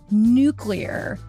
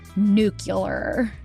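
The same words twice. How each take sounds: First: It is said like 'nuclear', with 'clee' before 'ar'. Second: It is said like 'nucular', with 'cu' before 'lar'. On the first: The speaker calls it right. "I can pronounce it correctly" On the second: The speaker calls it wrong. "in the George Bushian manner I was taught during my childhood"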